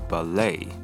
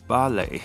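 First: American accent, stress on the second syllable. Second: British accent, stress on the first syllable.

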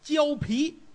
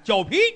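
First: It is said in standard Mandarin. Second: It is shouted in a Tianjin accent.

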